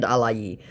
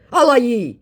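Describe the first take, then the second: First: Said in the usual way. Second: High, louder put-on voice; mocking the scammer's code word. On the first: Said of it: "in response to the second". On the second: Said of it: "he puts in again".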